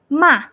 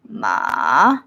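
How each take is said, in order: First: The pitch falls downward. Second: The pitch sits very low. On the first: "going down" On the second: "very low"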